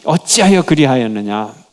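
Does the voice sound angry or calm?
angry. It is said forcefully, with angry energy. The speaker is furious and exasperated. "강한 에너지가 입에서 나오는데 ... 너무 답답한 거죠"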